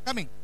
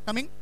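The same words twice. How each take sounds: First: The voice falls like an answer. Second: The voice rises like a question. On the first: Stating that one is coming. "Answer" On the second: Asking whether someone is coming. "Question"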